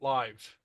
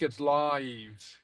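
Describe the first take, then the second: First: The vowel is run together into one syllable. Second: The vowel stretches into almost two syllables. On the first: The speaker calls it wrong. "It's very common in English for us to run it all together" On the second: The speaker calls it right. "But in Gaelic, it's live"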